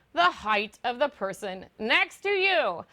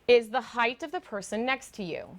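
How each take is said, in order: First: "the height of the person next to you" slowly spelled out; slow down and weight each word of "the height of the person next to you"; emphatic repeat. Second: Said in the usual way. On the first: Real, not acted. Emphatic repeat after a puzzled reaction.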